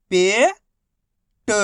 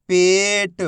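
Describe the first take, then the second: First: Each syllable held, long pause between; first syllable rising, then a separate second. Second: Whole word in one joined, drawn-out piece; teacher's blended model reading; syllables blended. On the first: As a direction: sound it out for beginning readers. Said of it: "एक ही अक्षर का उच्चारण करके". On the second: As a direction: join the sounds into one clear word. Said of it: "आपस में मिला के पढ़ना है". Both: Shown as a demonstration.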